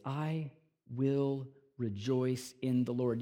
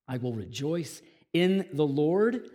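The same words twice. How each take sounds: First: Softer, slower I will rejoice in the Lord; preacher quietly savouring the verse. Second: Said in the usual way. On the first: Shown as a demonstration. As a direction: let "will" linger softly and slowly. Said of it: "He can say this".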